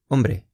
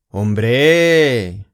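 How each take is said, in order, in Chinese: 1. 这个词说得平淡，没有强调。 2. 这个词带着强调、感叹的语气说。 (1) "如果你说Hombre 对方就听不懂" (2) "你要说Hombre"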